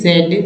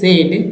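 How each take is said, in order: Both takes have the same delivery.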